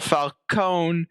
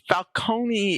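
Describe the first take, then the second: First: The name is said with Americanized pronunciation. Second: The name is said with Italian pronunciation. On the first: "the Americanized version" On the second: "the correct Italian pronunciation"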